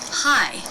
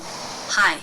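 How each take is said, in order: First: The pitch glides up and then down. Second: The pitch stays level on one note. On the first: The speaker calls it right. "Do you hear that change in pitch, that shape in that syllable?" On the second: The speaker calls it wrong. "Very different from"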